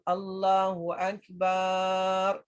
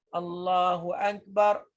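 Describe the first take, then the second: First: The last syllable of Akbar has a long vowel. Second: The last syllable of Akbar has a short vowel. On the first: God is a drum. The speaker calls it wrong. "kalau kita panjangkan bar" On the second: God is the greatest. The speaker calls it right. "Akbar dengan dipendekkan bar"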